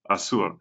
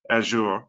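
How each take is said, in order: First: It is said in a Spanish accent. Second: It is said in a British English accent. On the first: "if you speak Spanish, uh, it might sound like" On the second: "U K English is more like"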